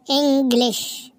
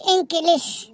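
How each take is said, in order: First: إنجليش pronounced properly with the jeem; correct English. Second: إنكليش with a hard k sound; إنكليش mispronounced with a kaf; wrong English. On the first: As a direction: say إنجليش with ج, not ك. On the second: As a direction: say إنكليش with ك, the mistaken way. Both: Shown as a demonstration. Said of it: "إنجليش بالجيم مش بالكاف".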